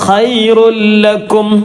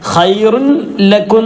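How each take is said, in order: First: The n merges into a doubled l sound. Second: The n is pronounced separately before the l. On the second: "ഖൈറുൻ ലക്കും എന്ന് പറയുന്നത്"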